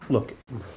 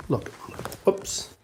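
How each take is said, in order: First: Said in the usual way. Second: Hushed whisper so as not to wake the dog. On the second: Real, not acted. Host shows viewers the sleeping dog, whispering. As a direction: breathe it out softly.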